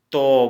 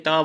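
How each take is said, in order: First: तो as a loud, rounded dental "to"; Assamese letter pronunciation. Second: त as dental "ta" with open vowel; Hindi letter pronunciation. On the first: Teacher giving the Assamese sound, तो loud and rounded. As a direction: round the vowel firmly in तो. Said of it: "असमिया में इसको". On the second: Teacher giving the Hindi letter, त with open vowel. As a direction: keep the vowel in त unrounded. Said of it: "हम हिंदी में त बोलेंगे". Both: Shown as a demonstration.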